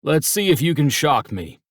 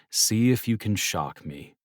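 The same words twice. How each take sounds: First: Higher, louder playful dare; a teasing father's wager; Dad's challenge. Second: Said in the usual way. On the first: Acted. Dad daring his sons to shock him, playful.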